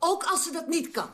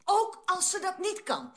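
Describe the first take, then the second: First: Insist, leaning on "Ook"; firm insistence. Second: "Ook" pitched high, the whole phrase drawn out slowly; slow emphatic repeat. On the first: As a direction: stress on "Ook", firm retort at normal pace. Insists, then repeats it after "hoor je me. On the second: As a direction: spell it out slowly, stressing "Ook". Repeats it to force the point. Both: Acted.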